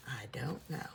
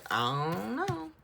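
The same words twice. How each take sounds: First: Said in the usual way. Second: High, loud, drawn-out 'I don't know'; big theatrical shrug in the voice; exaggerated cluelessness. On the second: Real, not acted. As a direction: stretch it out and send the pitch soaring. Playful guessing, exaggerated first take.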